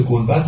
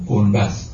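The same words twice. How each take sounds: First: Said in the usual way. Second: گنبز with a final z for d; surviving archaic z-ending in گنبز; regional old-style pronunciation. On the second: Shown as a demonstration. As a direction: end گنبز on a buzzed z.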